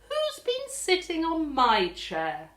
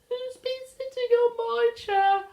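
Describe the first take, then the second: First: It is said in a plain, normal voice. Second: It is said in a high, small voice.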